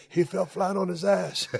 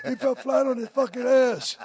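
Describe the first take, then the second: First: Said in the usual way. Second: Higher, louder mock Manchester accent yelling. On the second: Host imitating Davey Boy's Manchester yell on air. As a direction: ham up a Manchester announcer's outburst. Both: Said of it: "Davey Boy with that Manchester accent".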